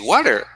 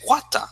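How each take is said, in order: First: It is said with an American accent. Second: It is said with a British accent. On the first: "In American English, we say water" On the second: "in British English, they say water"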